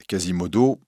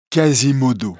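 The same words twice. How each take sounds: First: Said in the usual way. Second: A louder, other voice for the hunchback; deaf bellringer. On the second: A narrator's reading. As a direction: answer simply, a bit louder. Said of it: "croyant que le prévôt lui demande son nom". (le bossu sourd, voix plus forte et différente)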